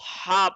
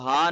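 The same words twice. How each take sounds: First: A sharp, tense h from the throat. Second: A soft, breathy h from the chest. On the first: The speaker calls it right. "हा पढ़ना है शार्प करके" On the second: The speaker calls it wrong. "आपने इसको हा नहीं पढ़ना"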